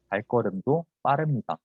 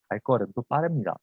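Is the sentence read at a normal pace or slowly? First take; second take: slowly; normal. First: It is read slowly and carefully. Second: It is read at a normal speaking pace.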